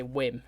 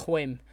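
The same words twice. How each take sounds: First: Said in the usual way. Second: "Whim" opened with an audible H, as "hwim". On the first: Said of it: "Like, I say". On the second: Retold or imitated. Imitating how a character says his W's, "Whim" said as "hwim". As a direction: blow an H into the start of "Whim". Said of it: "he was like".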